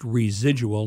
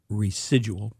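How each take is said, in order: First: The middle consonant sounds like a z. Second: The middle consonant sounds like an s. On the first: The speaker calls it right. "that's pronounced residual" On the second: The speaker calls it wrong. "not residual"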